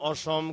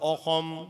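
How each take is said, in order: First: The name is said with a Bengali pronunciation. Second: The name is said with an Assamese pronunciation. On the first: "এত সুন্দর নাম অসম" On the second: "কয় অসম"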